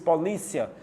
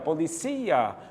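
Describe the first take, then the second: First: The stress is on the second syllable. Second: The stress is on the third syllable. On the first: This is the Portuguese pronunciation. "No português" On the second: This is the Spanish pronunciation. "No espanhol, cia"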